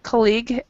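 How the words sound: It is said with a British English pronunciation. "That's actually a British English pronunciation"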